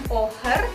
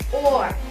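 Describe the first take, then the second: First: An h sound is heard after the vowel. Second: No h sound; the vowel is held long. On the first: The speaker calls it wrong. "bukan oher" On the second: The speaker calls it right. "H-nya melebur, jadi panjang ya"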